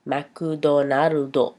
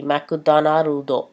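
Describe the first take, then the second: First: McDonaldo drawn out very slowly as makudonarudo; Japanese accent. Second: McDonaldo said as makudonarudo, Japanese style; Japanese accent. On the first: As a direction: stretch McDonaldo syllable by syllable, Japanese style. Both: Shown as a demonstration. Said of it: "say them like a Japanese person would".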